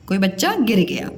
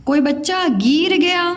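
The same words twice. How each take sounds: First: गिर with a short, quick i; correct short vowel. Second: गिर stretched to "geer"; wrong long vowel. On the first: Teacher gives the right sentence, short i in गिर. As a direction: keep the i in गिर brief. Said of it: "गिर गया बोलते हैं". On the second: Teacher shows pupils a mistake, long ee in गिर. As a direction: draw out the i of गिर into ee. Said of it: "गिर गया तो नहीं बोलते". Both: Shown as a demonstration.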